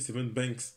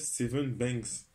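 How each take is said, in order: First: The name ends with a K sound. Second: The name ends with a G sound. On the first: "j'avais prononcé Seven Banks avec un K" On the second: "on m'a dit que ça se prononçait Seven Banks. Genre un G"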